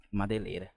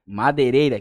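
First: Barely audible, dropped away; said too softly for the mic; too quiet, off the mic. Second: Louder, misjudging his own volume; overshooting the volume with headphones on; too loud, headphones on. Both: Real, not acted. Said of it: "que eu tô com fone aqui".

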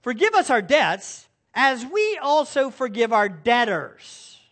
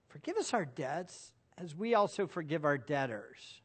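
First: Said in the usual way. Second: Hushed second reading; quiet, reflective repeat. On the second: Shown as a demonstration. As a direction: let the words sink in quietly. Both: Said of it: "Notice the little phrase".

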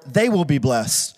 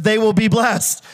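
First: Low, slow closing declaration; slow, lowered delivery as a settled conclusion; solemn promise. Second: Raised, slow emphatic declaration; slow, lifted delivery as the first half of a contrast. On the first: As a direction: drop the pitch and land it slowly. His people blessed, the answering half. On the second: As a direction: make the point slowly, voice held up. Banks blessed, set against his people. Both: Retold or imitated.

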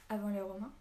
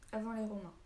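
First: "Avant les Romains?" louder, voice rising at the end; questioning. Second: "avant les Romains" as a settled statement, falling at the end; confirming. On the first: Boy interrupts the old man's tale to ask, questioning. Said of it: "demanda Naquet". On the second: Old man answers the boy's question, confirming. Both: A narrator's reading.

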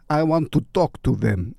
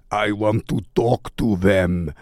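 First: Put-on light Russian accent, half by accident; a hint of Russian accent slipping in; lightly Russian-accented plea. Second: Said in the usual way. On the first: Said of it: "I did it in a Russian accent". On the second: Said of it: "I don't know why I did it in a Russian accent".

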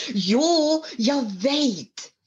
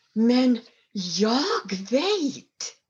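First: Bright burst, much higher on jo; eager daughter. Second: Slow, confident daughter's voice; drawn out and sure of herself; daughter's quiet certainty. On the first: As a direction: jump in eagerly with the answer. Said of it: "sa Sali-Maj". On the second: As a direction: she knows the answer, slowly. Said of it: "sa dottern". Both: A narrator's reading.

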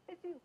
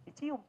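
First: Much softer, higher teasing murmur of Dicium; hushed tease. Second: Laughing shyly through the word; giggling. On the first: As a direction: drop Dicium to a sly hush. ("Dicium" diucapkan pelan dan menggoda) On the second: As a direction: let a giggle carry dicium. Giggly aside about kissing. ("dicium" diucapkan sambil tertawa malu) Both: Real, not acted.

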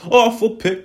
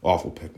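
First: Awful pick blurted high and loud; "Awful pick" punched up high and loud; louder outburst. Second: Said in the usual way. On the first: Real, not acted. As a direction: shout "Awful pick" in disgust.

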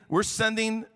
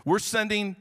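The two takes are said the same way.

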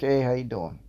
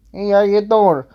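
First: Said in the usual way. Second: High, loud hammed-up pickup line; Joey's pickup line. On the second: Fourth date greeting the listener, a high loud hammed-up pickup line. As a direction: belt it like a cheesy flirt. Joey catchphrase loud take.

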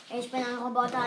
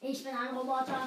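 First: Low flat robot voice; old speech synthesizer. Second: Low, softer robot voice; old speech synthesizer. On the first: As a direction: announce it like a machine. (tiefe Roboterstimme) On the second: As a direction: repeat it like a machine. (leise Roboterstimme) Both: Pretend.

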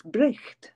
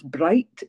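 First: "bricht" with a short i and throaty ch; "bricht" rhyming with Scots "nicht", ch as in loch; Scots pronunciation. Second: Said in the usual way. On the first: Shown as a demonstration. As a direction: say "bricht" the Scots way, raspy ch before the t. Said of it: "if it's bright, it's bricht". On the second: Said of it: "it's bricht".

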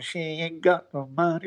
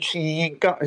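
First: Singing through a held nose; nasal voice. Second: Said in the usual way. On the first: Shown as a demonstration. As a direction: pinch the nose and sing it. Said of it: "I held my nose and". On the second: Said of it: "So I said, I said".

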